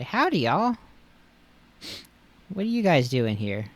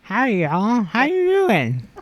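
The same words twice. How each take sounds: First: High, bright country greeting; cheerful Lickitung voice. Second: Tongue sticking out. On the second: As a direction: talk with the tongue stuck out. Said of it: "talk to the tongue sticking out". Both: Acted.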